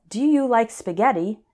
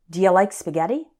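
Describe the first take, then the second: First: Each word is said separately and carefully. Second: "Do you" is run together as "dia".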